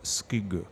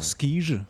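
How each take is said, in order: First: The name is pronounced the Danish way. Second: The name is pronounced the French way. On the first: "si tu fais danois, il va faire skug" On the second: "Et en français, ça donnera... Il va faire skige"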